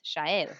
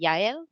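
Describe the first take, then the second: First: The name is said with an Argentine Spanish pronunciation. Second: The name is said with a Mexican Spanish pronunciation. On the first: "in Argentina, where I'm from, it's Shael" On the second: "in Mexico, they would pronounce it Yael"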